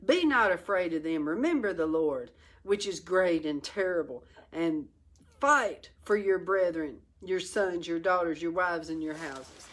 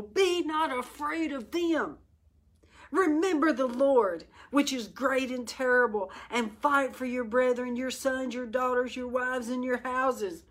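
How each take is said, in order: First: Said in the usual way. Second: Higher, stirring reading of the verse; raised rallying read. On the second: Shown as a demonstration. Preacher reading Nehemiah's words higher and stirring. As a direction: lift it into a rallying cry. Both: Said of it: "Let me read that again".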